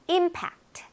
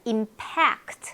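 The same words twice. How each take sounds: First: The stress is on the first syllable. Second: The stress is on the second syllable. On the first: It is a noun meaning an impact or shock. "앞에 강세가 있으면요" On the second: It is a verb meaning to strike or affect. "뒤에 강세 있는 것들이 네, 주로 동사가 됩니다"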